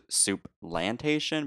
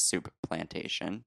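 First: SOUP PLANTATION run together with one shared P; Soup-lantation, the two words sharing one P. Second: Said in the usual way. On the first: Shown as a demonstration. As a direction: blend Soup into Plantation, saying a single P in the middle. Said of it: "share a P". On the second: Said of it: "but no, it, its real name is".

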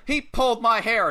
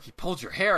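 First: High-pitched tattletale whine to the ref; mock complaint. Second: HAIR rising as a question; questioning echo. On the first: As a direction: imitate tattling on someone. Retold complaint to the referee. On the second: Retold or imitated. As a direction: repeat it back, lifting HAIR into a question. Referee's retold question back.

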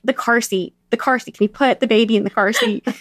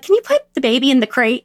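First: Said in the usual way. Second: Slip of the tongue. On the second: Retold or imitated. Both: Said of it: "I slip on my words all the time".

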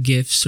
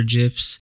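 First: "gifs" with a hard g as in gift. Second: "gifs" with a soft g, like jifs. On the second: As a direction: say "gifs" starting with a j sound. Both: Shown as a demonstration. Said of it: "gifs or gifs".

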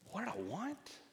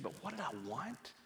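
First: "What did I want" pitched far higher, rising on "want"; emphatic repeated question. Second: Higher, softer question on "what did I want"; retold self-questioning. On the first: Retold or imitated. Wife questioning her own motive to husband, insistent rising question. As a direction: repeat it with "want" swooping sharply upward. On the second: Wife confessing to husband after her outburst, searching self-question. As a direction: ask "what did I want" softly, pitch lifted.

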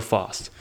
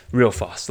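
First: Said in the usual way. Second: "Real" pushed up and louder, then "fast"; stress on real. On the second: Shown as a demonstration. Podcaster repeating about wearing out shoes, stress on "Real".

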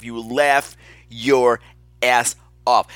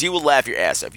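First: "laugh", "your", "ass off" slowly, each stressed apart; emphatic repeat. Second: Said in the usual way. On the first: Real, not acted. Host promising listeners laughs, slow stress on "ass off". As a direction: break before "ass off" and punch it.

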